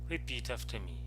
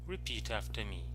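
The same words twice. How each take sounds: Both takes have the same delivery.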